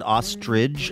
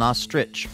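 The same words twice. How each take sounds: First: The word ends with a 'j' sound. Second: The word ends with a 'ch' sound. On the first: The speaker calls it wrong. "like it ends in a G" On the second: The speaker calls it right. "and it doesn't"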